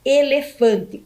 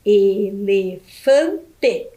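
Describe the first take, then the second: First: Said in the usual way. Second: "Elefante" split slowly into e-le-fan-te, each syllable apart. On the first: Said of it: "o último animal que nós vimos foi o elefante". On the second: Shown as a demonstration. Teacher counting syllables for children, saying "Elefante" as e-le-fan-te very slowly. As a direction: clap out "Elefante" in four very slow beats, e-le-fan-te. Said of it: "Quantas sílabas tem o nome do elefante?".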